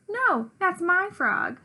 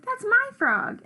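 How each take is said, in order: First: High, slow, drawn-out retort; insistent contradiction. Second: Much higher, louder, slower insisting; escalating squabble. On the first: Narrator character argues back over the frog, insistent. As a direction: stretch the opening word and argue back. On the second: Gobblecracker fights back over the frog, insisting harder. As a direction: top the other claim, pitched right up. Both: A narrator's reading.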